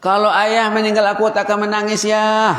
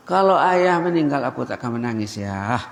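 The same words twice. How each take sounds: First: Put-on much higher and louder child's declaration; emphatic high child's voice; high emphatic repeat. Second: Said in the usual way. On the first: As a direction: ring it out high for the crowd. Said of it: "repeats the child's line". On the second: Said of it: "child repeats on request".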